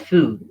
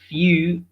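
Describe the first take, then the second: First: The y glide before the vowel is left out. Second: A y glide comes before the vowel. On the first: The speaker calls it wrong. "not foo" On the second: The speaker calls it right. "you have to say few"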